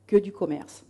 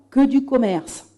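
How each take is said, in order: First: "Que du commerce" softer, falling away; subdued repeat. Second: "que du commerce" spaced out slowly; emphatic. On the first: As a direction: drop "Que du commerce" quietly as a flat restatement. Same phrase repeated as afterthought. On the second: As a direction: stretch out "que du commerce" word by word. Key phrase said slowly for emphasis. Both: Real, not acted.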